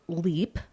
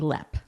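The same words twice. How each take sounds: First: It is read out as it is written. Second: It is said the way locals say it. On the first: "It's spelled Leap" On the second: "but they say Leap"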